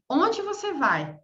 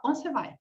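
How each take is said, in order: First: Slow, every word separated; slow and careful. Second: Fast, words run together; quick clipped. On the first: Teacher showing the slow full form. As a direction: spell it out slowly, word by word. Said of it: "falar bem devagar". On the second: Teacher showing how natives shorten it. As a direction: swallow the syllables, say it the quick everyday way. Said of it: "eu vou falar". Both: Shown as a demonstration.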